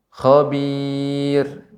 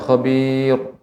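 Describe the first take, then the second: First: The word is said with a thin, flat sound. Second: The word is said with a heavy, thick sound. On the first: The speaker calls it right. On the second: The speaker calls it wrong. "Bukan khabir"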